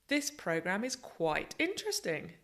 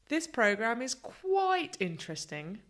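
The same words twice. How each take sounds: First: The stress is strong on interesting. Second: The stress is strong on quite.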